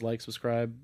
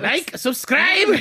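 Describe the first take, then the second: First: It is said in a natural speaking voice. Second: It is said in an exaggerated put-on character voice.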